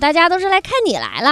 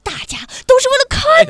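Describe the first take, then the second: First: It is said in a calm, ordinary voice. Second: It is said loudly and excitedly.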